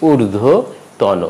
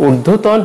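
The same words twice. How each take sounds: First: ঊর্ধ্বতন slowly with final "o"; correct pronunciation. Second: ঊর্ধ্বতন ending on bare n; wrong pronunciation. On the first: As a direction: say ঊর্ধ্বতন as "urdho... tawno". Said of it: "উচ্চারণটি হবে". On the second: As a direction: say ঊর্ধ্বতন as "urdho-tawn". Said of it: "ঊর্ধ্বতন হবে না". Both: Shown as a demonstration.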